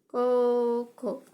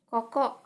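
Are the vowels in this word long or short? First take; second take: long; short. First: Both vowels are held long. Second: Both vowels are said short. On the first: It means high school. "yang ini artinya S M A" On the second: It means here. "ini artinya di sini"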